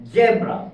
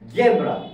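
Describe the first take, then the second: Both takes have the same delivery.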